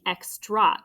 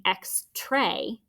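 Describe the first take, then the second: First: "extra" ending in a schwa, ex-truh; right pronunciation. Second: "X-tray" with a long A, like ex-tray; wrong pronunciation. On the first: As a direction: say "extra" slowly, last vowel a relaxed uh. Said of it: "it's saying extra with that schwa sound". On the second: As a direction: say "X-tray" as the wrong open-syllable ex-tray. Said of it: "it's not saying X-tray". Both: Shown as a demonstration.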